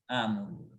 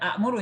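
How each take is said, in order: First: The first vowel is long, with no glottal stop. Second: A glottal stop follows the first short vowel. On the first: The speaker calls it right. "tapi a" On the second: The speaker calls it wrong. "Jadi bukan amuru ya"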